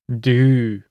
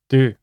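First: The word is said slowly. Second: The word is said fast.

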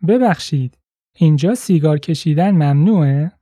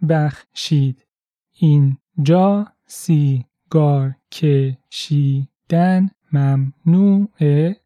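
First: The sentence is spoken at normal conversational speed. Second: The sentence is spoken slowly and carefully. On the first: "Once more at natural speed" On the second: "Let's break it down"

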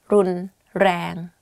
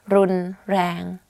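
Both takes have the same delivery.

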